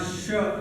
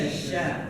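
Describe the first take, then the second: First: The vowel is rounded, like 'o'. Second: The vowel is open, like 'a'. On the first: The speaker calls it wrong. "Jangan syo" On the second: The speaker calls it right. "Biasa sya"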